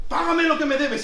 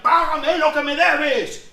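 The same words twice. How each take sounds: First: Higher and louder demand; angry demand. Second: Higher, louder, slow threatening demand; choking demand. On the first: Servant grabbing debtor on stairs, louder angry demand. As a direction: spit out the demand again. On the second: Servant throttling fellow servant, louder angry demand. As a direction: squeeze the debt out of him. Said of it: "le cogió de la pechera y le ahogaba". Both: Retold or imitated.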